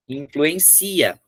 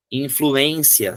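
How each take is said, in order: First: Influencia slowed, weight moved onto -ci-; slow demo of the verb form influencia, stressed on -ci-. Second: Influência slowed, weight on -ên-; slow teaching demo of influência with the stress on -ên-. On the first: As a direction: stretch influencia and lean on the ci syllable. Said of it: "se eu não colocar acento, vai ficar". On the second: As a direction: stretch influência and lean on the ê syllable. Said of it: "onde é que eu tenho a tônica". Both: Shown as a demonstration.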